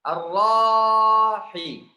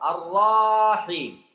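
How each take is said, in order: First: The 'ra' syllable is drawn out before 'him'. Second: The same.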